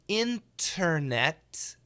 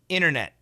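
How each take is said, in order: First: Both T sounds are fully pronounced. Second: The first T drops and the second is stopped. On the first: "perfect pronunciation" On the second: "Fast pronunciation. The first T is canceled, and the second T we stop"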